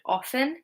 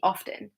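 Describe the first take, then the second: First: The T is silent. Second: The T is pronounced. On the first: "that was with a silent T" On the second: "people started to pronounce the T"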